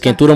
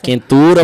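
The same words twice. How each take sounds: First: It is said at normal speed. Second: It is said more slowly.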